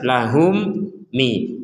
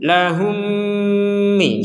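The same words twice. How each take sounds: First: The m is said crisply with no nasal hum. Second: The m is merged and held with nasal hum. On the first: The speaker calls it wrong. "Kalau dibaca dengan jelas, ... gak ada dengungan dan itu salah" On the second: The speaker calls it right. "mim yang pertama masukkan kepada mim yang kedua ... dibacanya dengan dengungan"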